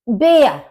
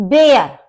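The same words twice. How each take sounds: The two takes are said the same way.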